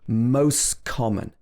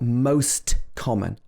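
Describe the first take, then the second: First: The t at the end of most disappears. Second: The t at the end of most is pronounced. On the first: The speaker calls it right. "the t sound disappears" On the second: The speaker calls it wrong. "It's not most common, unless you're speaking really slowly"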